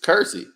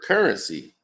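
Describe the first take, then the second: First: The word is squeezed into two short syllables. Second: The word is said in full, three syllables. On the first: "It's Cursey. That's all it is" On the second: "we can't even say the word currency"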